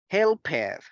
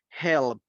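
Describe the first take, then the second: First: The ending is said as an extra syllable. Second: The ending is said as a t sound. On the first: The speaker calls it wrong. "we don't say helped" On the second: The speaker calls it right. "Instead, we say help"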